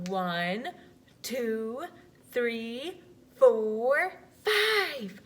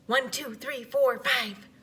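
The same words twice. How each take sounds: First: The numbers are counted slowly. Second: The numbers are counted very fast.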